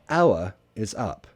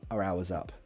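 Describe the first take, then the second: First: The phrase is said slowly and emphatically. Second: The phrase is said quickly and smoothly. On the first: "if I say it slowly and emphatically" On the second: "but quickly"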